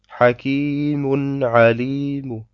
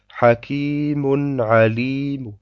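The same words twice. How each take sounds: First: The last word ends with a faint -u. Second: The last word ends with a faint -u.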